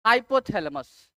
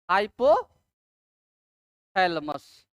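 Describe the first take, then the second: First: Said in the usual way. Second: "hypothalamus" very slowly, split by a long pause after "hypo"; broken-up dictation. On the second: Shown as a demonstration. Teacher spelling out the new topic for students, broken-up dictation. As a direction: lift "hypo", wait, then lower the rest of "hypothalamus".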